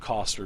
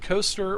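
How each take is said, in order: First: The first vowel is a short 'o', as in 'cost'. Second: The first vowel is a long 'oh', as in 'coast'. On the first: "or you can say Lion Shield Coster because it's C O S T E R" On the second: "You can say Lion Shield Coaster"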